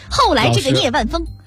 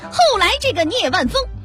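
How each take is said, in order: First: The voice is pitched lower. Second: The voice is pitched higher. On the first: "你用那个刘兰芳的" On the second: "你调还是再高点。"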